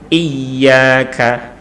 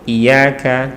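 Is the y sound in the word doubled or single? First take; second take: doubled; single. First: The y sound is doubled and held longer. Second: The y sound is single and short. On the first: You alone we worship. The speaker calls it right. "Yang satu pakai tasdid" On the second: The meaning shifts to worshipping sunlight. The speaker calls it wrong. "tanpa tasdid"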